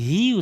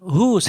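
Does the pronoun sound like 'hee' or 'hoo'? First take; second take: hee; hoo. First: The word is said with an 'ee' vowel. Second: The word is said with an 'oo' vowel. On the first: The speaker calls it right. "এখানে হি উচ্চারণ হবে।" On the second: The speaker calls it wrong. "এখানে হু উচ্চারণটা হবে না।"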